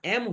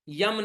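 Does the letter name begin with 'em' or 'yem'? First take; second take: em; yem. First: The letter name begins with a plain vowel. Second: The letter name begins with a 'y' sound. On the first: The speaker calls it right. "एम होता है" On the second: The speaker calls it wrong. "यम नहीं होता"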